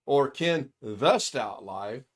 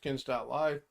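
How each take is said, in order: First: Slow, with "the" drawn out and stressed. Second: Said in the usual way. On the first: Shown as a demonstration. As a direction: say "Ken the Stout Live" slowly, leaning on "the".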